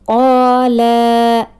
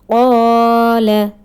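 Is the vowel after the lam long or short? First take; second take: long; short. First: The vowel after the lam is long. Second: The vowel after the lam is short. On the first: The speaker calls it wrong. "Incorrect pronunciation... it means mad" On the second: The speaker calls it right. "There is no alif"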